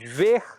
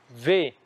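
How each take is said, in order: First: The final R sound is pronounced. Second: The final R sound is dropped. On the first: The speaker calls it right. "Ao invés de dizermos ver" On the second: The speaker calls it wrong. "dizemos ver"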